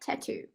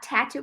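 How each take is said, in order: First: The stress is on the last syllable. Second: The stress is on the first syllable. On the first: The speaker calls it right. "porque é tattoo" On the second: The speaker calls it wrong. "não vou falar tattoo"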